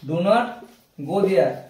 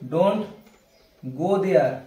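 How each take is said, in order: First: Do not is said as two full words. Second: Do not is shortened into one syllable.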